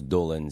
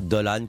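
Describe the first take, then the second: First: The name is pronounced the Irish way. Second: The name is pronounced like French Doliprane. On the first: "ça se prononce Dolan, c'est irlandais" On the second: "Dolan comme Doliprane"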